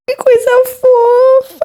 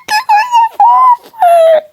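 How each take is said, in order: First: High, slow delighted squeal. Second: Very high, slow, loud squeal. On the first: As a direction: coo over something adorable. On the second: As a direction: shriek with delight at a cute thing. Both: Real, not acted. Squealing over cute photo.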